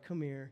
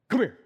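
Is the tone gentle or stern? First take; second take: gentle; stern. First: It is said in a soft, gentle tone. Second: It is said in a stern, firm tone.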